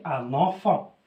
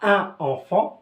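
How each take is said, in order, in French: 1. Le son n se lie au mot suivant. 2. Les deux mots sont prononcés séparément, sans liaison. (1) "je dois dire" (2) "je dis pas"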